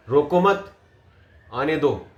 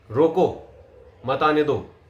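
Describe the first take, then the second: First: "रोको मत" together, break, then lower "आने दो"; pause after मत. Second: "रोको", short break, then falling "मत आने दो"; pause after रोको. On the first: Coach repeats the letting-in version, pause after मत. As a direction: keep मत with रोको, drop "आने दो". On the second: Coach repeats the stopping version, pause after रोको. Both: Shown as a demonstration.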